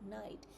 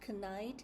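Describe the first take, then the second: First: No K sound is heard at the start. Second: A K sound is heard at the start. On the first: The speaker calls it right. "we don't pronounce the K sound" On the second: The speaker calls it wrong. "it's pronounced not knight"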